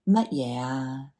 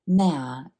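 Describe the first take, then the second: First: The question word is said with two full syllables. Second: The question word is squeezed into one syllable. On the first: "that is the proper way to say what" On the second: "a very contracted form of your 乜嘢"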